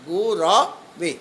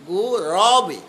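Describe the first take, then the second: First: গুরবে said very slowly, each syllable গু-র-বে spelled out; 1 slow careful pronunciation. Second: Said in the usual way. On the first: Shown as a demonstration. Teacher correcting students on গুরবে, said very slowly. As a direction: draw out গুরবে syllable by syllable, no উ sound after র. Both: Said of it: "রয় উকার নয়".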